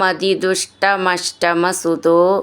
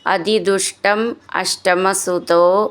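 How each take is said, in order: First: The two words are run together. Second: The two words are said separately.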